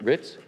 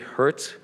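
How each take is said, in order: First: The name starts without any H sound. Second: The name starts with an audible H sound. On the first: The speaker calls it right. "the H is silent" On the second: The speaker calls it wrong. "Am I pronouncing that correct?"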